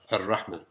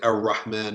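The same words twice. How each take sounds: First: The r is a light single tap. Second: The r is a hard English-style r. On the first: The speaker calls it right. "touching of the top of the tongue with the roof of the mouth and releasing some air" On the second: The speaker calls it wrong. "neither the hard R of English ... we don't say Ar-Rahman, Ar-Rahim. That's wrong"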